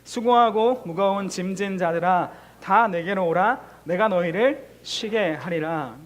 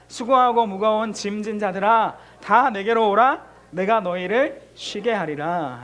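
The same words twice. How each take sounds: First: Measured unison reading, each phrase drawn out; slow recitation. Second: Louder second reading. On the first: Pastor leading the church in reading Matthew, slow recitation. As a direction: read the verse aloud slowly with the congregation. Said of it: "우리 소리 내어서 한번 읽어보겠습니다". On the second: Pastor repeating the verse reading, louder and firmer. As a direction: read it again, louder and slow. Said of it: "한 번 더 읽을게요". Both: Shown as a demonstration.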